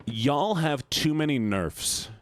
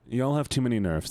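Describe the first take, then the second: First: Slow, drawn-out "Y'all", higher pitch; emphatic commiseration. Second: Said in the usual way. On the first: Real, not acted. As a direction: stretch "Y'all have too many nerfs" for emphasis. Commiserating, first emphatic take.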